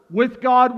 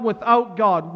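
First: "with God" said louder and higher; bright loud "with God". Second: Said in the usual way. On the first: Shown as a demonstration. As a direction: lift "with God" up with hope. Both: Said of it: "weave back and forth with God, without God".

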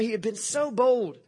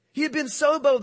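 First: Said in the usual way. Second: SO pushed higher and louder, the rest falling away; stress on so. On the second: Shown as a demonstration. Preacher stressing how bold Peter was, hitting so. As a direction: lean hard on the word so.

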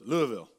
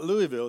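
First: "Louisville" squeezed to Lou-uh-vul; "Louisville" swallowed Southern-style into Lou-uh-vul. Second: "Louisville" said Lou-ee-ville, every syllable clear; "Louisville" spelled out as Lou-ee-ville; wrong way. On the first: Southern coworker correcting the pastor, saying "Louisville" as Lou-uh-vul. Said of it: "she's Southern". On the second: Southern coworker correcting the pastor, saying "Louisville" as Lou-ee-ville. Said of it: "She's like, "It's not Louisville". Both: Retold or imitated.

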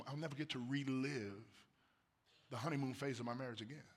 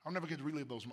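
First: Quiet wistful repeat of "never"; softer, wistful. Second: Said in the usual way. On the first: Real, not acted. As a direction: let the words fall quietly.

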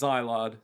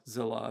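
First: "Zilard" with a long eye in the first syllable; trying a pronunciation. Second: "Zillard" with a short i, as ZIL-ard; corrected pronunciation. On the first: Co-host checks the name, saying "Zilard" as ZYE-lard. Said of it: "Let's double check this". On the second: Co-host corrects the name, saying "Zillard" as ZIL-ard. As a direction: say "Zillard" to rhyme its start with "will". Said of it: "it's Zillard". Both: Shown as a demonstration.

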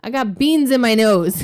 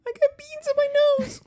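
First: A hint of a small child; lightly voiced little girl confessing; kid's voice, lightly. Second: Put-on very high, tiny child voice; tiny little kid voice. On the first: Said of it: "And she goes". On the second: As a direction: squeak it out like a little toddler. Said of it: "she's got a little tiny person".

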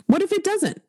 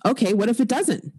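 First: Emphatic high. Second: Said in the usual way. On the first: Real, not acted. Emphatic repeat of hopeful question.

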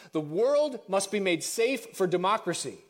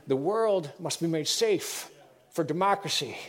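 First: "The world must be made safe for democracy" in a lightly voiced stately address; presidential speech voice. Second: "the world must be made safe for democracy" dragged slow, each word weighted; slow, emphatic repetition. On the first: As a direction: read it as a formal proclamation. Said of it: "I'm going back to my voice now". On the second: Shown as a demonstration. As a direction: spell it out slowly and deliberately. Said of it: "let me tell you".

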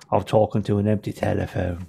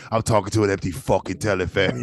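First: Put-on British gangster accent; British limey accent. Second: Put-on limey accent, swearing; British limey accent. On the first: Bob Hoskins as a British thief, imitated British accent. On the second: Friend echoing the Hoskins line, mock British accent. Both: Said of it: "You want him like a limey".

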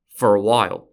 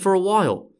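First: "for a while" pitched lower, with deliberate weight; emphatic. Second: Said in the usual way. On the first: Shown as a demonstration. Podcaster hinting to listeners that the peace won't last, emphatic. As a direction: stress "for a while" in a low, firm tone. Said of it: "Emphasis on".

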